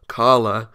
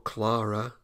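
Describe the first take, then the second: First: Carla stressed, slow and louder; self-correction. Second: Clara said in passing as a quick mistaken name; wrong name slip. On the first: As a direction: correct yourself firmly, drawing out Carla. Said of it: "not Clara". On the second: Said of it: "I'm so bad with names". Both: Real, not acted.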